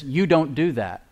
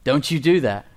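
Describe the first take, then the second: First: "You don't do that" stressing "You", slow and steady; grace's calm "you don't do that". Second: "Don't you do that" punching "do", firm and a bit louder; a stern parent scolding, hitting "do"; the law's warning "don't you do that"; stress on DO. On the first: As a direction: say it slowly, as a statement of identity, leaning on "You". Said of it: "So grace says". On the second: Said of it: "Law says this". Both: Shown as a demonstration.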